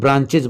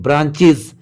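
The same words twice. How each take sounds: First: The plural ending is not said as 'iz'. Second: The plural ending is said as 'iz'. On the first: The speaker calls it wrong. "ये भी बहुत ज्यादा लोग गलती करते हैं, ब्रांचेज बोलते हैं" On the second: The speaker calls it right. "ES को इज पढ़ेंगे"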